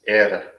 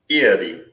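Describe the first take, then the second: First: It is said with the Irish vowel sounds. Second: It is said like the lake's name. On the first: This is the Gaelic name itself. The speaker calls it right. "it's Éire" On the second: This is how people locally misname it. The speaker calls it wrong. "you'll hear people here saying Erie"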